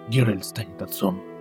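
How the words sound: It is said in an imitated character voice.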